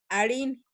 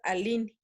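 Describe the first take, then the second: First: The middle consonant is an r sound. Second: The middle consonant is an l sound. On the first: "cuando veamos una R H" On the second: "en muchas regiones, vamos a escuchar"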